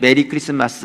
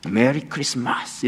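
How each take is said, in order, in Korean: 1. 한국식 억양으로 평범하게 말합니다. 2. 미국식으로 혀를 많이 굴리며 말합니다. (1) "우리 그냥 메리 크리스마스 이렇게 하는데" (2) "혀를 좀 많이 굴리셔야 돼요 ... 미국 사람들은"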